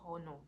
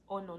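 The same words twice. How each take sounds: First: The word starts with an audible H sound. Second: The word starts with a vowel, no H. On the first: The speaker calls it wrong. "not honor" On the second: The speaker calls it right. "I think it's honor, Like I think the H is silent"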